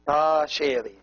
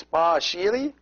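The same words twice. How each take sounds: First: "sheri" with an "ay" vowel; first vowel of "sheri" as in "say"; A sound. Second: "shiri" with an "ee" vowel; first vowel of "shiri" as in "see"; long E sound. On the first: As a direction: say "sheri" as "shayree". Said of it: "always pronounced A". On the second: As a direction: say "shiri" as "sheeree". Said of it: "pronounced like E". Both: Shown as a demonstration.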